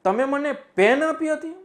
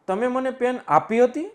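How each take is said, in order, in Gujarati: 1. ભાર પેન પર પડે છે. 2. ભાર આપી હતી પર પડે છે. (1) "હવે પેન ઉપર ભાર આપી દઉં" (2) "આપી હતી એની ઉપર ભાર આપી દઉં"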